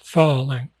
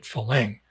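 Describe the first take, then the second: First: The stress is on the first syllable. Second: The stress is on the second syllable. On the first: The speaker calls it right. "emphasis a little bit on the fa" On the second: The speaker calls it wrong. "I say it Phalang. That's incorrect"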